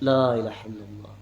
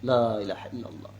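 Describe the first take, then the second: The two takes are said the same way.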